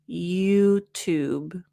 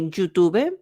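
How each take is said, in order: First: It begins with a soft 'y' sound. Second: It begins with a hard 'j' sound. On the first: The speaker calls it right. "we're going to open up the mouth a little more" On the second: The speaker calls it wrong. "you might say YouTube, j, j"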